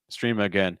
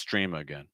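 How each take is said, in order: First: The pitch goes up on 'again'. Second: The pitch drops lower on 'again'. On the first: The speaker calls it wrong. "Do you hear how it kind of goes up?" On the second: The speaker calls it right. "try to take that pitch a little lower"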